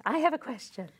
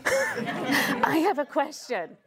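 First: A hint of the needy friend; mock texter. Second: Slow, laughing mock plea; lightly voiced needy friend; mock texter. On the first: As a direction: toss the line off again. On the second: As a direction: drawl the text message teasingly. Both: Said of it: "you love getting those messages".

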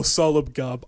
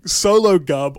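First: Sologub as SOL-ub-gub; alternative pronunciation. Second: Sologub as SOH-loh-gub; unsure pronunciation. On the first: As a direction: say Sologub with a short first o, "sollub-gub". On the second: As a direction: say Sologub starting like "solo". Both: Real, not acted. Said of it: "I don't know".

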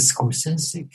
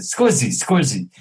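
First: Scorsese said as skor-SAY-see, rising at the end; correct pronunciation. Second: Scorsese squashed into skor-ZEES, the last syllable dropped; mispronounced name. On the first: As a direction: give Scorsese its proper Italian sound, skor-SAY-see. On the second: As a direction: imitate John fumbling Scorsese as skor-ZEES. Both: Retold or imitated. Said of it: "He couldn't pronounce it".

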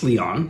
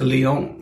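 First: "Leon" with an open ah in the last syllable; American pronunciation. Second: "Leon" with a long oh in the last syllable; alternative pronunciation. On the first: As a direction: say Leon as lee-AHN. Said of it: "that's how Americans say it". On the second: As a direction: say Leon as lee-OHN. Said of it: "Or is it Leon?". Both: Shown as a demonstration.

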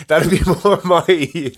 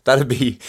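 First: Laughing. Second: Said in the usual way. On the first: Real, not acted.

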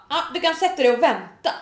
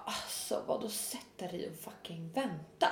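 First: Higher, louder mock brush-off; dismissive. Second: Much softer, low incredulous echo; muted disbelief. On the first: Salon staff to booked customer, mock dismissive. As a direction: imitate staff sending a customer to wait. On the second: Retold or imitated. Customer told to wait, quietly incredulous. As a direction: retell it as an indignant aside under the voice. Speaker's disbelieving reply, retold.

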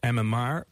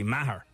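First: "Maher" said as one syllable, Mar; Dublin pronunciation. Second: "Maher" in two syllables, MA-her; country pronunciation. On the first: Host showing the Dublin surname, "Maher" said Mar. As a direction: say "Maher" to rhyme with car. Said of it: "is she Dublin where they say". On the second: Host showing the country surname, "Maher" said MA-her. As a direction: sound the h in "Maher". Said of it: "if she's from the country". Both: Shown as a demonstration.

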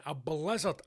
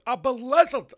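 First: Said in the usual way. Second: High, loud burst on BLIZZARD; mock-dramatic exclamation. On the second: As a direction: blurt it out with overblown drama. Mock-dramatic repeat of the term.

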